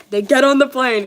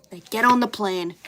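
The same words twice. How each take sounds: First: Louder, laughing through the line; real giggle on every word. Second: Said in the usual way. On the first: Real, not acted. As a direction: crack up rereading it. Rereads laughing.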